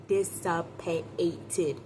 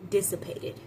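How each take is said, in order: First: "Dissipated" stretched slowly, syllable by syllable; slow, deliberate "Dissipated" for effect; drawn-out emphasis. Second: Said in the usual way. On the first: Shown as a demonstration. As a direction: draw out every syllable of "Dissipated". Word repeated drawn out for effect.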